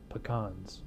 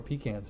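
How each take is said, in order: First: "pecans" said puh-KAHNZ; one pronunciation of pecans. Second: "pecans" said PEE-cans; other pronunciation of pecans. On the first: Reviewer joking on the beer's name, "pecans" as puh-KAHNZ. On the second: Reviewer correcting with a laugh, "pecans" as PEE-cans. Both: Shown as a demonstration. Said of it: "depending on how you pronounce it".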